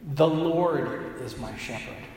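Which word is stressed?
Lord. The stress is on the word Lord.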